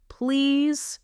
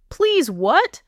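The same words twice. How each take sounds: First: High, drawn-out desperate plea; gasping, pleading for relief; gasped plea. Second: High, louder, innocent teasing question; mock-innocent lilt, rising at the end; feigned innocence. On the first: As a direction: plead helplessly on a raised pitch. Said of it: "he gasped". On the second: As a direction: ask it as if you have no idea. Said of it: "my voice innocent". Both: A narrator's reading.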